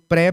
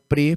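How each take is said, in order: First: The vowel in the prefix is open. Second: The vowel in the prefix is closed. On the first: This form is written with a hyphen. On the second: This form is written without a hyphen.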